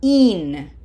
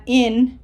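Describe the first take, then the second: First: "in" with a long, tense "ee" sound, like "een"; smiled Spanish I. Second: "in" with a lax English short i. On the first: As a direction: smile through "in", a pure Spanish i. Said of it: "Smile. This is not in, it's in". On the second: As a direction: say "in" as the ordinary English word. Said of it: "This is not in". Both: Shown as a demonstration.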